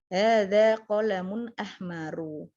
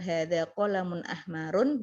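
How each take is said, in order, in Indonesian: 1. Kata terakhir berakhir dengan -u biasa. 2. Kata terakhir berakhir dengan bunyi -un. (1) "dia tidak ditanwinkan"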